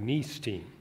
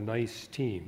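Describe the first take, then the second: First: Nice is said the French way, like niece. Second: Nice is said like the English word nice.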